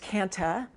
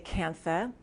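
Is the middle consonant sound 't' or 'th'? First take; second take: t; th. First: The middle consonant is a plain t. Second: The middle consonant is said with an h. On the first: "It's also pronounced kanta without the H" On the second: "or I say kantha"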